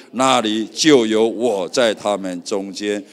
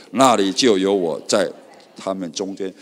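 No difference in how they are said.

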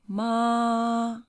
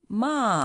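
First: The pitch stays high and level. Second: The pitch falls sharply from high to low. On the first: "the first one" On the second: "the fourth going down, falling one"

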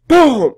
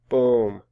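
First: The word is said loudly with strong emphasis. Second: The word is said quietly with no emphasis. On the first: The speaker calls it right. "It's boom" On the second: The speaker calls it wrong. "not boom"

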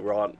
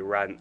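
First: The word is said with a posh British vowel. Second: The word is said with a plain, unposh vowel. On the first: "I say rant, posh" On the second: "I can't say rant"

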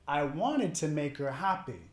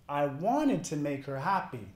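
Both takes have the same delivery.

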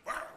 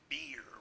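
First: Beer is said like 'bar', the local accent. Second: Beer is said with a clear 'eer' vowel.

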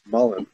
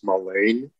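First: The second syllable does not rhyme with rain. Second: The second syllable rhymes with rain. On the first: The speaker calls it right. "it's mullein, not mullein" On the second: The speaker calls it wrong. "I thought it was pronounced mullein, That's why I started that rhyme scheme about complain and rain"

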